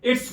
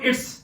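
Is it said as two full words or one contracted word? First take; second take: contracted; contracted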